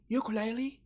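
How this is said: It is said with an English pronunciation. "In English"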